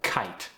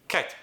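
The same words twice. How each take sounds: First: Said in the usual way. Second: Kite said short, Korean accent; Korean-accented kite, cut short. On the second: Shown as a demonstration. Coach demonstrating unaspirated sounds, Korean accent. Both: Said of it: "some unaspirated sounds".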